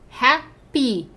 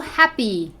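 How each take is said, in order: First: "Happy" in two separate beats; "Happy" said as hap, pause, py; split into syllables. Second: Said in the usual way. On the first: Shown as a demonstration. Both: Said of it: "Tem terminação com Y".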